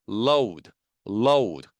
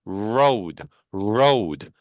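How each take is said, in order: First: "load" with a clear forward L; L resonating in front. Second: "road" with a drawn R from the back; R resonating inside. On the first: Teacher drilling L against R, forward L in "load". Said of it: "앞쪽에서 울려요". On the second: Teacher drilling R against L, inward R in "road". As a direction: ring the R of "road" deep inside, low. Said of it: "안쪽에서 울려요". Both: Shown as a demonstration.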